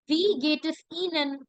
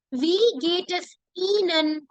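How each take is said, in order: First: Said in the usual way. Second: "Wie geht es Ihnen" said slowly, each word clear; slow teacher demo of "Wie geht es Ihnen"; slow model. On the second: Shown as a demonstration. Teacher modelling the formal question for class, slowly. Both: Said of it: "she would say".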